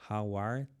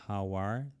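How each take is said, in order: Both takes have the same delivery.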